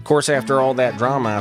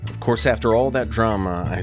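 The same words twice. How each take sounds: First: It is read in a put-on character voice. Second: It is read in the speaker's normal voice.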